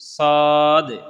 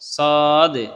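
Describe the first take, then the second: Both takes have the same delivery.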